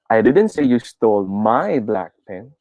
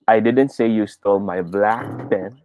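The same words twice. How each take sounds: First: The word 'my' carries the main stress. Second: The word 'black' carries the main stress. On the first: A different pen, not mine, was taken. "Try natin sa my" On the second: A pen of another color was taken.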